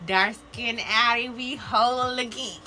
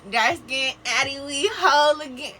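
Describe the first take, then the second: First: Excited call-out. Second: Belted out higher and louder; a proud, happy hollering cheer; loud joyful call-out. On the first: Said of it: "calling out a card message". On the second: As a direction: shout it like a celebration. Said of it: "repeats the call-out louder". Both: Acted.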